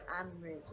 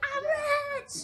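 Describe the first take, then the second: First: It is said calmly, without excitement. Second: It is said in a crazy, excited way.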